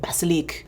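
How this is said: It is said with a French accent. "this beautiful French accent"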